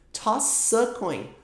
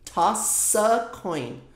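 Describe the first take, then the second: The two takes are said the same way.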